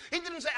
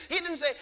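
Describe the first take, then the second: No difference in how they are said.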